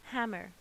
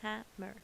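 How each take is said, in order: First: Said in the usual way. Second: "hammer" in two beats, ham-mer; split into syllables. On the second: Shown as a demonstration. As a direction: say "hammer" with a small gap between syllables. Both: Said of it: "I can hear two vowel sounds here".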